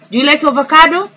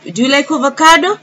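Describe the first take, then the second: First: Higher, quicker and louder, "avocado" lifted; brighter repeat. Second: Cheerful prompt. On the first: Teacher urging the children, bright fast rise. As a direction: push it up quick to coax an answer. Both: Shown as a demonstration.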